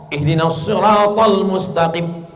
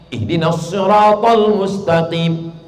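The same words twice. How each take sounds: No difference in how they are said.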